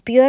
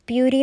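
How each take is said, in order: First: The word ends on an r sound. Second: The word ends on an ee vowel. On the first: The speaker calls it wrong. "പ്യൂർ എന്നല്ല" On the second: The speaker calls it right. "പ്യൂരി എന്നാണ് pronounce ചെയ്യണമെന്നുള്ളത്"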